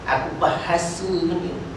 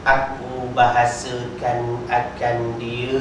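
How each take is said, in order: First: It is said in an angry, scolding tone. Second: It is said in a calm, neutral tone. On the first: The speaker is scolding someone for lacking manners. The speaker calls it wrong. "Kalau saya buat intonasi, intonasi macam ni, dia jadi lain... Maknanya marah, maki, hamun" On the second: The speaker is translating the text. The speaker calls it right. "Dia kena baca aku bahasakan akan dia"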